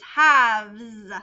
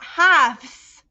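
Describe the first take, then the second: First: The word ends with a buzzing z sound. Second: The word ends with a hissing s sound. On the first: The speaker calls it right. "That's a Z" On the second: The speaker calls it wrong. "It's not"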